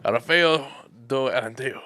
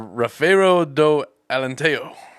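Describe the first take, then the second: First: The name is said at a faster pace. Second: The name is said at a slower pace.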